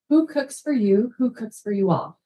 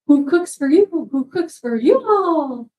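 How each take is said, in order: First: It is said in a plain speaking voice. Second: It is said imitating a barred owl's call.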